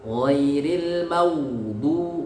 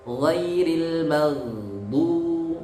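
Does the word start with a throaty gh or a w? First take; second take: w; gh. First: The consonant is a w sound. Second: The consonant is a throaty gh sound. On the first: The speaker calls it wrong. "itu dibaca seperti waw" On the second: The speaker calls it right. "mestinya maudu ghain"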